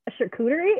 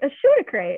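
First: The word is said as shar-koo-tuh-ree, four syllables. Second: The word is said as shoot-a-cray, three syllables. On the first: The speaker calls it right. "She had no idea that was how you said it" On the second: The speaker calls it wrong. "And she's like"

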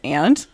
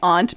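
First: The word is said in a plain, ordinary way. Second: The word is said in a fancy-sounding way. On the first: This is the proper use of the language. The speaker calls it right. "the way you were supposed to pronounce it is aunt" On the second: The speaker wants to sound refined. The speaker calls it wrong. "people say aunt because they want to sound fancy"

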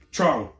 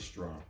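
First: The word begins without an s sound. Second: The word begins with an s sound. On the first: The speaker calls it right. "You gotta pronounce trong like it has no S" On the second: The speaker calls it wrong. "You can't say strong"

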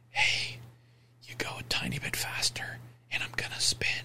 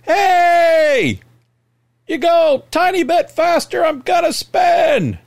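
First: It is said softly, almost whispered. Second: It is said loudly and clearly.

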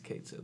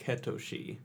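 First: The name is said as two English words. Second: The name is said with three syllables. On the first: This is the pronunciation the localizers chose. "they've decided, okay, it's Kate Sith" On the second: This is how the original Japanese version renders it. "in the original Japanese ... the phonetic spelling of it is like Ketoshi"

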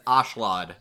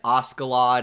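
First: The name is said with no k sound. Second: The name is said with a k sound. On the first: The speaker calls it right. "actually more apt and said throughout this dub as Ashlad" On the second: The speaker calls it wrong. "I read Askeladd as it was read"

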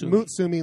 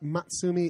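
First: The first syllable sounds like 'moo'. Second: The first syllable does not sound like 'moo'. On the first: The speaker calls it right. "It's Mutsumi, like the cow" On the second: The speaker calls it wrong. "He says it's not Matsumi"

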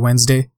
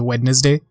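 First: No d sound is heard in the middle. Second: A d sound is heard in the middle. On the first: "but most people say Wednesday" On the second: "I enunciate the letters sometimes more than they are normally are. Like, I say Wednesday"

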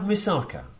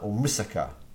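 First: The word is said the common anglicized way. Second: The word is said the more authentic way. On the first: The speaker calls it wrong. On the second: The speaker calls it right.

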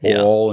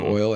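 First: The word is said in a Southern accent. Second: The word is said in a standard accent. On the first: "Southern people say oil" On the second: "instead of oil"

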